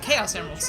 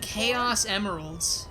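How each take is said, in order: First: It is said quickly and plainly, without drama. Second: It is drawn out with dramatic, misplaced emphasis. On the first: The speaker calls it right. "like nice and quick" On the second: The speaker calls it wrong. "all the emphasis in like all the wrong places"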